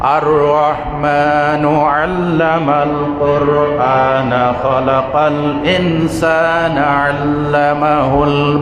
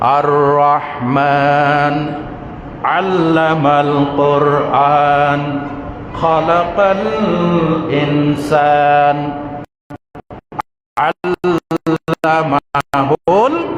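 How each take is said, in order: First: It is recited straight through without pausing. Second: It is recited with pauses between the phrases. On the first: It sounds like prose. "থামলাম না" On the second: It sounds like poetry. "যদি থেমে থেমে পড়ি"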